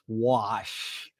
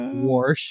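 First: No r sound comes before the sh. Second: An r sound comes before the sh. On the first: The speaker calls it right. "it's wash" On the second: The speaker calls it wrong. "Not warsh"

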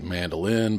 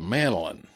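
First: The word is pronounced in a careful, standard way. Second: The word is pronounced in a colloquial Georgia way. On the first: "when I'm being very careful, you know, I can flip the switch and say mandolin" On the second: "I tend to use the colloquial Georgia thing and call it a mandolin"

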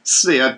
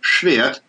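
First: The word begins with a plain s sound. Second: The word begins with a sh sound. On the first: The speaker calls it wrong. "it isn't supposed to be pronounced Svirt" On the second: The speaker calls it right. "but Schwert instead"

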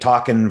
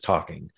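First: The word ends with a plain n sound. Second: The word ends with an ng sound. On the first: "the N apostrophe instead of like IN apostrophe instead of ING" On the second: "instead of ING"

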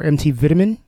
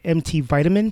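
First: It is said in a British accent. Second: It is said in an American accent.

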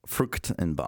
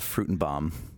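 First: The first part has a German 'ch' sound. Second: The first part sounds like English 'fruit'. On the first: The speaker calls it right. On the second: The speaker calls it wrong.

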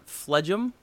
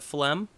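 First: It is pronounced the way it is spelled. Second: It is pronounced the usual standard way. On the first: The speaker calls it wrong. "I've heard people call it phlegm" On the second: The speaker calls it right. "instead of phlegm"

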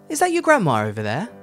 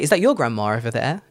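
First: The word grandma is stressed; your is weak. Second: The word your is stressed, in its strong form. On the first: There is only one old lady present. The speaker calls it right. "So there you're using the weak form, because grandma is the important part" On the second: It singles out your grandma from other people's. The speaker calls it wrong. "you wouldn't say"

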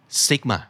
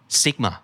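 Both takes have the same delivery.

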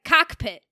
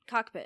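First: The word is crisply enunciated, with clear consonants. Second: The word is slurred, with loose consonants. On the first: This is how the speaker says it. "But I was like, / I like to enunciate the word" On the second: This is how the locals say it. "How do they say it? / They want you to slur it"

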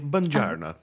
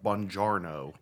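First: It is said with an Italian-style accent. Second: It is said with an American accent.

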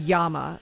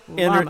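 First: The word begins with a y sound. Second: The word begins with an l sound. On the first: "If I was in Peru, I might call it Yama" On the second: "but it's llama"

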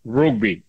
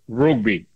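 First: The word is said with an Irish 'u' vowel. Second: The same.

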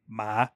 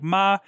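First: The pitch starts low and rises. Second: The pitch is high and stays level. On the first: "and then a low rising" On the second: "there's a high flat"

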